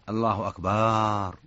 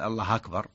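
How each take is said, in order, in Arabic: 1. تُمَدّ الحركة بعد الباء. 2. تأتي بعد الراء الأخيرة فتحة. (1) "أو مد الباء" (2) "فتح هذا سهل يعني"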